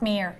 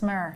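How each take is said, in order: First: The vowel is long, like 'meer'. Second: The vowel is short, like 'mer'. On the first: The speaker calls it wrong. "It's not mere" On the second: The speaker calls it right. "it's mer"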